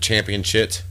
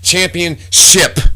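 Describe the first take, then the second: First: The last syllable ends with a t sound. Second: The last syllable ends with a p sound. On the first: The speaker calls it wrong. "I'm even saying it wrong" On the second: The speaker calls it right. "It's not a shit. It's a ship"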